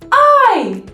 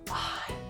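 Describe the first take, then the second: First: It is said in a loud voice. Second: It is whispered.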